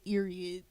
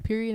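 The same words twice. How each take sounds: First: The word begins without a P sound. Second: The word begins with a P sound. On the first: "They took the P off" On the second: "a period"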